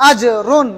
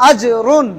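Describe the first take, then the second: No difference in how they are said.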